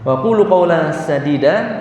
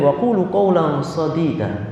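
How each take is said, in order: First: The s in sadida is the plain sin. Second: The s in sadida is the emphatic sod. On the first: Speak words that are true. The speaker calls it right. "ucapkanlah ucapan yang benar" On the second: Speak words of pus. The speaker calls it wrong. "Jenengan sebab sodid artinya apa? Nanah"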